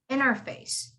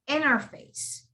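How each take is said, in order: The two takes are said the same way.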